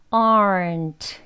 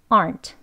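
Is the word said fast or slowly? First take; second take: slowly; fast. First: The word is said slowly. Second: The word is said fast. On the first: "천천히 먼저 aren't" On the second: "빨리 하시면서 aren't"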